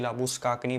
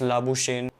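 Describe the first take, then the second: First: The name is said the South African way. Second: The name is said the English way. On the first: "उनके accent में या language में it's actually लाबुस्काकनी" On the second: "English में it's it's लाबुशेन"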